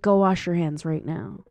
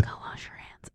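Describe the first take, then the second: First: Said in the usual way. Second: Whispered command. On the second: Retold or imitated. Sitter telling kid to wash hands, whispered. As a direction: whisper it urgently. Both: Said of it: "I'm like".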